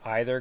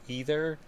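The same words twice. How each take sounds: First: The first syllable sounds like 'eye'. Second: The first syllable sounds like 'ee'. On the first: "I'm a real either guy" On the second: "instead of either"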